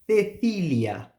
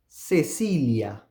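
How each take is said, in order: First: The c's are pronounced as a th sound. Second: The c's are pronounced as an s sound. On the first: This is the pronunciation of Spain. "So now I am producing the th sound" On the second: This is the Latin American pronunciation. "The two C's are pronounced with S"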